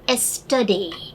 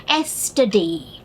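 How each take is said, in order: The two takes are said the same way.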